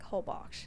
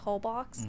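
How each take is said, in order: First: The name is said with the local Mexican pronunciation. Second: The name is said with an American pronunciation. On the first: The speaker calls it right. "I think it's pronounced like Holbox" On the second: The speaker calls it wrong. "Americans say Holbox"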